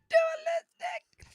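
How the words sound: It is said in a very high voice.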